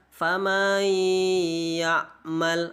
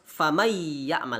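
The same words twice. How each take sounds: First: The vowel before the nasal is drawn out. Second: The vowel before the nasal is kept short. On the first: The speaker calls it wrong. "tidak boleh kita baca famay ya'mal" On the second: The speaker calls it right. "Jadi harus famay ya'mal, lanjut langsung"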